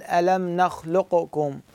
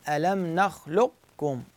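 First: Slow nakhluq-kum, bouncing the q before k; qaf with qalqala. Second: Slow nakhluq-kum, q held with no bounce; qaf without qalqala. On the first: Teacher showing the wrong reading, qaf bounced. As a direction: release the q with an echo. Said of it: "غلط". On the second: Teacher showing the correct reading, qaf held unbounced. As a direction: close on q, pause, then kum. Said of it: "شنو الصح؟". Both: Shown as a demonstration.

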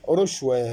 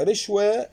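First: ورشوة with short u, "rushwe"; damma on ra. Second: رشوة with short i, "rishwe"; kasra on ra. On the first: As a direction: say the noun in ورشوة starting "ru". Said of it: "وبضمها". (ورشوة بضم الراء) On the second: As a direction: say رشوة starting "ri". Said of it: "بكسر الراء". (رشوة بكسر الراء) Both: Shown as a demonstration.

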